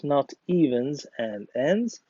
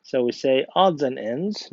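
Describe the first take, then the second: First: Evens and ends, the wrong version set against the right one; wrong idiom. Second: Odds and ends, with odds stressed; correct idiom. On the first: Teacher contrasting the wrong idiom for the class. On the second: Teacher giving the class the correct idiom, odds stressed. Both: Shown as a demonstration.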